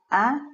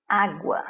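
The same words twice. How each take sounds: First: "água" broken in two, á... gua, with a long gap; split into syllables. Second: Said in the usual way. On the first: Shown as a demonstration. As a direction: raise the stressed á of "água", pause, then gua. ("água" separada em sílabas, Á... gua) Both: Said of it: "a penúltima sílaba é a tônica".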